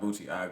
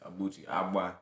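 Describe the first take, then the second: First: The ending is a plain 'aga' sound. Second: The ending has a 'gb' sound, 'agba'. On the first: The speaker calls it wrong. "it's not Obuchiaga" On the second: The speaker calls it right. "That's the correct pronunciation"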